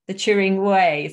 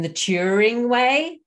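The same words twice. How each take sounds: First: The stress falls on the word Way. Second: The stress falls on the word Turing. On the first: It is a process and a journey. The speaker calls it right. "something to emphasize that it's more of this process and a journey" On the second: It names a fixed thing. The speaker calls it wrong. "rather than the Turing Way"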